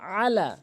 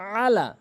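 First: The opening vowel has a throaty ain sound. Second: The opening vowel has a throaty ain sound.

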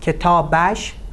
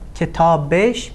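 First: The ending is pronounced with an 'a' vowel, 'ash'. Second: The ending is pronounced with an 'e' vowel, 'esh'. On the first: This is the formal written form. "written form" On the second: This is the everyday spoken form. "spoken form"

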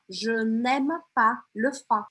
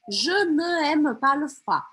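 First: The vowel of ne is dropped before aime. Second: The vowel of ne is kept before aime. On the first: The speaker calls it right. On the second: The speaker calls it wrong.

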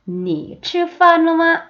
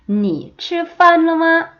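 Both takes have the same delivery.

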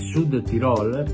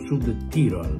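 First: Tirol is stressed on its last syllable. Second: Tirol is stressed on its first syllable. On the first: The speaker calls it right. "l'accento va sulla O, parola tronca" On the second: The speaker calls it wrong. "anche ai colleghi che continuano a definirlo Sud Tirol"

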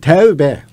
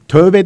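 First: The first vowel is an unrounded e sound. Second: The first vowel is a rounded ö sound. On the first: The speaker calls it right. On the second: The speaker calls it wrong. "Mesela tövbe değil"

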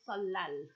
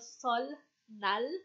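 First: The middle is said as one long l sound. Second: The middle is said as n followed by l. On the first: This is the actual spoken pronunciation. The speaker calls it right. "pero yung pronunciation niya is Solal" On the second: This follows the written spelling. The speaker calls it wrong. "kung mapapansin nyo"

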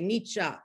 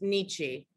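First: The name has a German-style pronunciation. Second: The name has an everyday anglicized pronunciation. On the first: The speaker sounds pretentious and highly educated. "really pretentious people say Nietzsche" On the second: This is how ordinary people say it. "everyone says Nietzsche"

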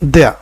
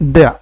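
Both takes have the same delivery.

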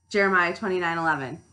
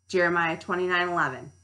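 No difference in how they are said.

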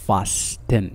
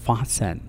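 First: The t sound is pronounced in the middle. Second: The t sound is silent in the middle. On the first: The speaker calls it wrong. "لا نقول fasten" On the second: The speaker calls it right. "لا ننطق فيها حرف تي"

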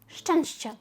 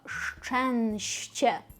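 First: The word is said quickly. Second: The word is said slowly. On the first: "Швиденько" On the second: "А помало"

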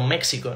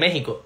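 First: The x sounds like ks. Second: The x sounds like a throaty h sound. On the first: The speaker calls it wrong. "y no México, ¿no? Como lo dicen en Estados Unidos" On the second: The speaker calls it right. "por eso se dice México"

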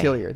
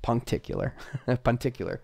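First: An 'l' sound comes after the 'ti' syllable. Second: A 'k' sound comes after the 'ti' syllable. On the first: The speaker calls it right. "There we go" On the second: The speaker calls it wrong. "I'm probably saying that wrong"

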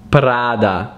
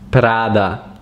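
First: The name is said with an Italian pronunciation. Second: The same.

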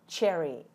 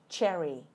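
The two takes are said the same way.

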